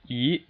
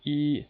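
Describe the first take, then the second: First: The pitch rises steadily from mid to high. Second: The pitch stays high and level throughout. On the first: "it's just a steady rise ... that's the second tone" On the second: "It goes from five to five. ... that would be the first tone"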